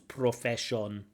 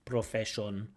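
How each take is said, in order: First: The unstressed vowels are pronounced as full vowels. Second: The unstressed vowels are pronounced as full vowels.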